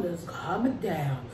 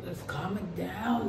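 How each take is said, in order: First: Slow, soft and low; soothing. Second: Soothing, slow. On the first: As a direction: ease it down gently. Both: Real, not acted.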